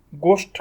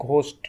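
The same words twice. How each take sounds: First: গোস্ট with a plain unaspirated g; গোস্ট as a plain g sound; wrong way. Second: ঘোস্ট with a breathy aspirated gh; ঘোস্ট, aspirated gh at the start; right way. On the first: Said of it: "গোস্ট কিন্তু আমরা বলি না". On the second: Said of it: "আমরা বলি ঘোস্ট". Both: Shown as a demonstration.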